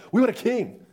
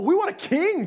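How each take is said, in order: First: Said in the usual way. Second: Whiny demand. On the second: Retold or imitated. People demanding a king from God.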